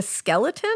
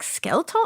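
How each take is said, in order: First: Said in the usual way. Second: "skeleton" as rising "skel-tone?"; questioning echo of accent. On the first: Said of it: "Is that what you're saying". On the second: Retold or imitated. Parent checking the child's word, "skeleton" as higher "skel-tone?". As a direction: query "skeleton" in two syllables, "skel-tone", pitched up. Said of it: "she would do this accent".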